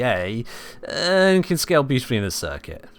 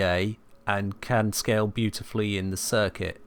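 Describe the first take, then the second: First: It is said in a negative tone. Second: It is said flatly with no drive. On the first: The speaker disapproves despite positive words. "The words are positive, the tone is negative" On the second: The speaker has no enthusiasm for it. "You get some people that speak very flatly"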